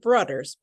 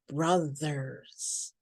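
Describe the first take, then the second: First: The middle consonant is a d sound. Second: The middle consonant is a th sound. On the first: The speaker calls it wrong. "not brothers, ... it's not a D sound" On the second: The speaker calls it right. "but brothers"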